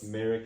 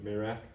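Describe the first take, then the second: First: The two vowel sounds come in swapped order. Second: The two vowel sounds come in original order. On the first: The speaker calls it wrong. "Everyone else, they swap the I and the E" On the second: The speaker calls it right. "my mom says it correct"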